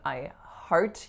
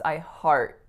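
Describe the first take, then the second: First: The final T is released audibly. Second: The final T is held without release. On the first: The speaker calls it wrong. "So I'm not saying I heart you" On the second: The speaker calls it right. "heart with an unreleased T"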